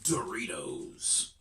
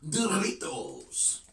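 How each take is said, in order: First: It is said in a plain English accent. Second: It is said in a Mexican Spanish accent.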